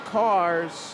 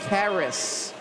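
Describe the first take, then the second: First: The name does not rhyme with Paris. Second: The name rhymes with Paris. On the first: The speaker calls it wrong. "I've been saying cars" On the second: The speaker calls it right. "rhymes with Paris"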